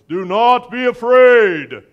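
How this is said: It is said in a put-on Moses voice.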